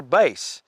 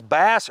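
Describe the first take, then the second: First: "Bass" rhyming with face; "Bass" sounding just like "base"; musical pronunciation. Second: "Bass" rhyming with pass; "Bass" with the a of "cat"; fish pronunciation. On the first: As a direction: say "Bass" like the vocal range, long a. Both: Shown as a demonstration. Unsure how name is pronounced.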